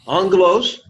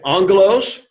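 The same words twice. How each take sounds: First: Angelos said AHNG-geh-los, higher, ng sound for the double gamma; model pronunciation. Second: Angelos called out higher and louder, AHNG-geh-los with the ng; model pronunciation. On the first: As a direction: lead the class in Angelos with a lifted voice. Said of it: "Everybody say this". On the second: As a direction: hit Angelos for repetition. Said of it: "Because of the double gamma". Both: Shown as a demonstration.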